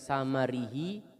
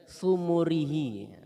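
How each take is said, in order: First: The first two vowels are both 'a'. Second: The first two vowels are both 'u'. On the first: "bi fathataini" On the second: "wa bi dhammataini"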